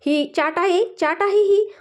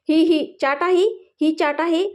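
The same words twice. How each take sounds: First: High-pitched sing-song copy of a sulky complaint; higher, exaggerated mocking echo; mocking mimicry. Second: Slow, higher, drawn-out complaint with rising ends; put-on sulky disdain, endings lifted; disgusted pout. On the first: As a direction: mimic the sulker to tease. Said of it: "प्रियाची नक्कल करू लागले". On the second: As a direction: sneer at it through a twisted mouth. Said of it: "तोंड वाकडं करत". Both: A narrator's reading.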